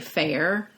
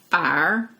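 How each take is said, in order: First: It is said in the speaker's own accent. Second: It is said in the dialect's accent.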